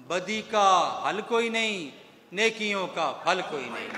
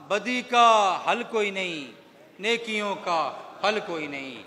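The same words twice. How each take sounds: The two takes are said the same way.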